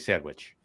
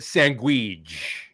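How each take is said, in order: First: The word is said in the speaker's normal pronunciation. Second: The word is said in an imitated character pronunciation. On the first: This is how the speaker says it. "Now I don't say that, by the way. It's I, I say sandwich" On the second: Someone else says it this way. "as Christopher Moltisanti in in uh, The Sopranos used to say his favorite sandwich"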